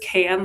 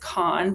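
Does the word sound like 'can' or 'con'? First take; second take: can; con. First: The vowel is flat, like in 'can'. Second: The vowel is open, like in 'con'. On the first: The speaker calls it right. "but it is can, like a Pepsi can" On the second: The speaker calls it wrong. "might think it's pronounced as con"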